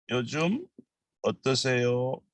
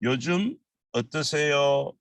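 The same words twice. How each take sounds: The two takes are said the same way.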